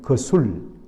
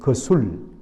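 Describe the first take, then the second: First: The name is said with two syllables. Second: The same.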